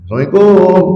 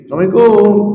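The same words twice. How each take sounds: First: It is said at a higher pitch. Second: It is said at the highest pitch.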